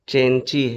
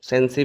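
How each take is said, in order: First: The name begins with a 'ch' sound. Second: The name begins with an 's' sound. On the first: "actual pronunciation इसका चेंची है" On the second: "इसको आप सेंसी भी कह सकते हैं"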